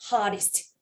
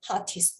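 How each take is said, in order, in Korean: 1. 미국식 억양이에요. t를 가벼운 r처럼 발음해요. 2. 영국식 억양이에요. t를 t로 발음해요. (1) "this is American. 미국식이죠"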